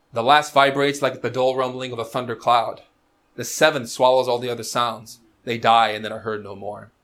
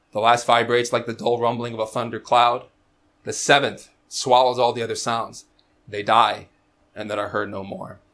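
No difference in how they are said.

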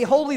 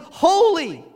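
First: The word is said at a plain level. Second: The word is said at its greatest volume. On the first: "One would say holy" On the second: "One would then increase the volume"

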